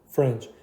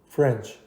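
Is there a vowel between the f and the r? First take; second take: no; no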